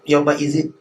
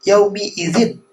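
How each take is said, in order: First: The first word ends in an a vowel. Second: The first word ends in an i vowel. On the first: The speaker calls it wrong. "Salah tuh" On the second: The speaker calls it right. "oh iya yaumi idzin"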